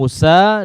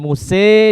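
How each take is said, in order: First: The final vowel is an open, clear a. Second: The final vowel is tilted fully toward e. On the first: "dengan al-fath" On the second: "dengan imalah"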